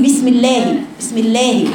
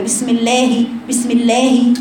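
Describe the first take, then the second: First: الله read as ilehi with a rushed lam; wrong bismillah. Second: الله with a short lam fatha sliding into kasra; rushed bismillah. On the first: Teacher imitates the student's error. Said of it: "خطأ". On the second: Teacher shows the rushed reading again. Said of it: "فانت تقرأها كده". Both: Shown as a demonstration.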